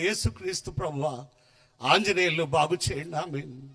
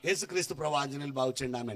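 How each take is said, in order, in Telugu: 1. దుఃఖంతో, ఏడుస్తూ అంటున్నారు. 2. ఏడవకుండా, సాదాగా అంటున్నారు.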